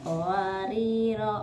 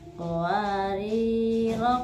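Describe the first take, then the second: First: The final vowel is drawn out long. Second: The final vowel is kept short. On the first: The reciter stops on this word. "ketika dibaca waqaf maka dibaca panjang" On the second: The reciter continues without stopping. "ketika wasal dia dibaca pendek"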